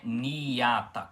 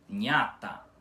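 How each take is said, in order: First: A long i vowel sounds between n and a. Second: The n and a blend with no separate i. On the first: The speaker calls it wrong. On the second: The speaker calls it right.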